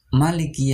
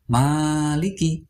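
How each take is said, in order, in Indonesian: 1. Vokal pertama pendek. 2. Vokal pertama panjang. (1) "dibaca pendek. Salah" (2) "harus panjang"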